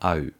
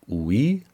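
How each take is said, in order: First: The diphthong is said like 'ow-ü'. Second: The diphthong is said like 'oo-ee'. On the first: The speaker calls it right. "sondern AÜ" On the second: The speaker calls it wrong. "Nicht UI"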